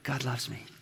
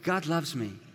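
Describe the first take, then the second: First: The words are whispered very softly. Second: The words are said at moderate volume. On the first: "just whisper it out loud" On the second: "Now say it again, but just a little louder"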